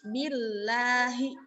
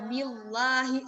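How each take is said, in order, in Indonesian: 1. Bunyi l-nya tipis dan ringan. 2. Bunyi l-nya tebal dan berat. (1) "dia tipis" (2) "suka ditebal-tebalkan"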